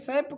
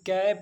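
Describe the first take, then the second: First: The word begins with an s sound. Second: The word begins with a k sound. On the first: The speaker calls it wrong. "सैप करेंगे नहीं" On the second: The speaker calls it right. "सी का उच्चारण क होता है। इसलिए सी A P कैप बोलेंगे"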